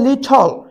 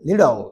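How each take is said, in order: First: The middle consonant is a clear t sound. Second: The middle consonant is a soft d sound. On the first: "ব্রিটিশরা বলে লিটল" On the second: "আমেরিকানরা বলে লিডল"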